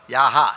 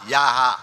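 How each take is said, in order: First: The word begins with a y sound. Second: The word begins with a y sound.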